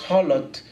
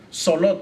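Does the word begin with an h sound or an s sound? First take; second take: h sound; s sound. First: The word begins with an h sound. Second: The word begins with an s sound. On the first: "suena como con J y es Holot" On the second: "no suena como Solot"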